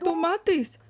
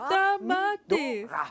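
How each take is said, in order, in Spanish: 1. El primer sonido vocal suena como 'o'. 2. El primer sonido vocal suena como 'a'. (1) "La forma correcta es tomates" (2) "Ella dice tamates"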